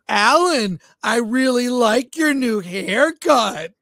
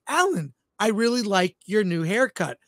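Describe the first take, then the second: First: It is said in a mocking, sarcastic tone. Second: It is said in a plain, sincere tone. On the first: The compliment is heard as mockery. "it would come off like really sarcastic" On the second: The compliment is meant genuinely. "I'd say"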